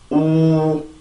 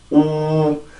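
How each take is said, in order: First: It is said with rounded lips and a hollow mouth. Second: It is said with rounded lips and a hollow mouth.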